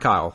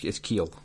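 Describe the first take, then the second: First: The vowel sounds like 'eye'. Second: The vowel sounds like 'ee'. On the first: The speaker calls it wrong. "It's not Kyle" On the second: The speaker calls it right. "It is actually pronounced Keel"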